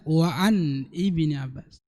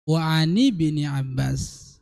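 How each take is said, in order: First: The words 'an' and 'Ibni' are said separately. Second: The words 'an' and 'Ibni' run together smoothly. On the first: The speaker calls it wrong. "jangan dibaca ... Itu menyalahi kaidah bahasa" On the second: The speaker calls it right. "Karena bersambung"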